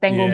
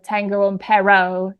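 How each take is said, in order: First: It has native Spanish vowels, stress and r. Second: It has shifted stress, changed vowels and another r. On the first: The speaker calls it right. "instead of" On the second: The speaker calls it wrong. "I say I don't know tengo un perro instead of"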